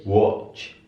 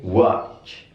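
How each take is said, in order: First: British 'watch' with rounded o, wotch; British pronunciation. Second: American 'watch' with open ah, wahtch; American pronunciation. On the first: Teacher contrasts accents for students, British pronunciation. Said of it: "Kalau British". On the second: Teacher contrasts accents for students, American pronunciation. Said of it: "Kalau di American ini dibaca A". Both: Shown as a demonstration.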